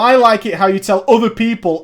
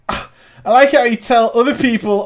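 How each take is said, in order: First: It is said in the speaker's normal voice. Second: It is said in a put-on voice imitating Cynic.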